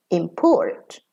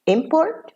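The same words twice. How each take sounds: First: "import" stressed on PORT, quick "im"; verb stress. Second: "Import" stressed on IM, high start; noun stress. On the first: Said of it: "and as a verb". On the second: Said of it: "as a noun". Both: Shown as a demonstration.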